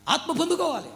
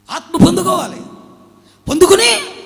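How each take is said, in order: First: Said in the usual way. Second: Loud, high, ringing proclamation; shouted preaching. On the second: Acted. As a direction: belt it out to the congregation. Preacher repeats line, shouting it.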